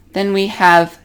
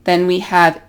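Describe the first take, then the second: No difference in how they are said.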